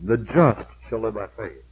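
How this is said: The word "just" is stressed.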